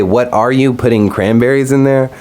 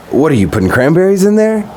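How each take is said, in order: First: "What ARE you", as asking someone's identity; stress on ARE. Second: High-pitched, mock-frantic question; retold frantic. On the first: Retold or imitated. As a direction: lean on "are", then "putting cranberries in there" as a guess. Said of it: "when I heard her say". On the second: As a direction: imitate a flustered, disbelieving girlfriend. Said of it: "kind of a frantic, like".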